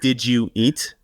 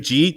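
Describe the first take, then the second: First: Each of the three words is said separately. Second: The words are squeezed into one syllable. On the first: "Jeet is like" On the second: "I used to say like Jeet"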